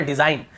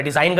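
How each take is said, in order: First: Said in the usual way. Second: "डिजाइन ग" with an audible final guh; wrong pronunciation. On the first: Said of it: "केवल डिजाइन". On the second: Shown as a demonstration. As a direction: sound the silent G after "डिजाइन". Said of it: "ऐसे नहीं पढ़ रहे".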